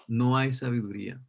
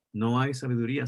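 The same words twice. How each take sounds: First: No hay sabiduría with no hit hardest; stress on no. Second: No hay sabiduría with the weight on hay; stress on hay. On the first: Pastor warning the church, stressing no. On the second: Pastor repeating the warning, stressing hay. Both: Shown as a demonstration.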